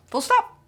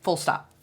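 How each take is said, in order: First: "Full stop" said much higher, ending on a rise; emphatic full stop. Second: Said in the usual way. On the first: Shown as a demonstration. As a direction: push "stop" up like a sassy final word. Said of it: "repeated with emphasis". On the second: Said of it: "repeated as a statement".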